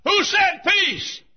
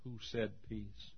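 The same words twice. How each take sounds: First: High, shouted, drawn-out question; crying out. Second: Hushed sentinel. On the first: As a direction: cry it out from a sickbed at full force. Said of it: "and cried". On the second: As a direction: ask it quietly, under the noise. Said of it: "a sentinel on guard said". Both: Acted.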